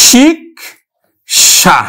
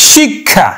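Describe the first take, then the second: First: শিক্ষা said very slowly as "shik-sha", k and sh both clear; Sanskrit pronunciation. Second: শিক্ষা said as "shikkha", like কক্ষ; Bengali pronunciation. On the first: Teacher showing students the Sanskrit reading, very slow. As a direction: draw out শিক্ষা, k then sh, slowly. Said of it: "কি উচ্চারণ করব?". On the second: Teacher showing students the Bengali reading. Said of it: "উচ্চারণ করি কিন্তু আমরা". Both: Shown as a demonstration.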